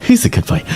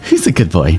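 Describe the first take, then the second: First: Much higher, sing-song praise for a dog. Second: Said in the usual way. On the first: Shown as a demonstration. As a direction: praise it like talking to a puppy. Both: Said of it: "you'd say it differently".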